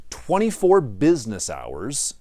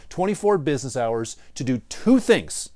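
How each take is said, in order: First: Slow and deliberate, leaning on "business hours"; emphatic slow "business hours"; stress on business hours. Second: Said in the usual way. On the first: Shown as a demonstration. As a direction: spell out "twenty-four business hours" word by word. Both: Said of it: "I stress the word business hours".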